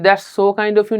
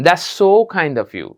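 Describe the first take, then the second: First: Said in the usual way. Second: So drawn out long and smiling; so stretched warmly. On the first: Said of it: "না বলে so-তে এক হালি পরিমাণ টেনে যান". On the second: Shown as a demonstration. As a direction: lean on the so in "That's so kind of you", hold it. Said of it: "so-তে এক হালি পরিমাণ টেনে যান".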